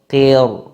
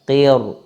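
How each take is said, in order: The two takes are said the same way.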